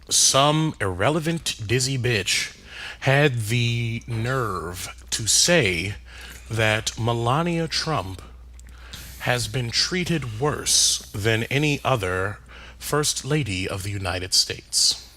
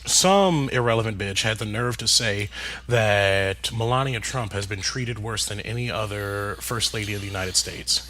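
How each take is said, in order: First: The sentence is said at a slower pace. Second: The sentence is said at a fast pace.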